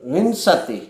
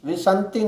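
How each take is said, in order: First: A nasal is heard before the sh sound. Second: A nasal is heard after the s sound. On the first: The speaker calls it right. "વી ઉપર મીંડું છે ... વિંશતિ બોલવું" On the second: The speaker calls it wrong. "વિસંતિ નહીં, ... સ પછી અડધો ન ન બોલવો"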